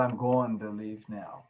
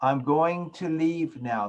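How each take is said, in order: First: "going to" slurred into "goin' ta", lower and softer; incomplete enunciation. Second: Slow "going to", every sound formed; correct full enunciation. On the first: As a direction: swallow the endings in "going to". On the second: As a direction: say "going to" as two complete words. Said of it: "say that word correctly". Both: Shown as a demonstration.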